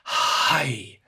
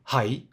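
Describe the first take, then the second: First: The h sound is long and drawn out. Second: The h sound is short. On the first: The speaker calls it right. "Stretch the H" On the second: The speaker calls it wrong. "like in Japanese"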